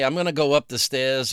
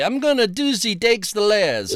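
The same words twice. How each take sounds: First: Said in the usual way. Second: Badly faked Cockney, pitched up; higher, hammed-up Cockney attempt; mock Cockney. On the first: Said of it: "is just, I say". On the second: Shown as a demonstration. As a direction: have a clumsy go at Cockney. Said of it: "the real Cockney thing is".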